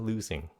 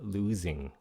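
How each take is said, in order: First: The middle consonant is a hissing s sound. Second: The middle consonant is a buzzing z sound. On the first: It is acceptable but less stylish. "miễn sao có âm xì thì losing cũng được nữa" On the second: It sounds more stylish. "Nếu muốn sành điệu thì à, các bạn phát âm Z"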